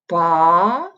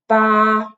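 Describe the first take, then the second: First: The pitch rises upward. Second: The pitch stays level and flat. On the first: "second tone would somewhere like this, like a rising line" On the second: "the first tone, which is usually written like a flat line on top of the finals, which usually make the tone flat"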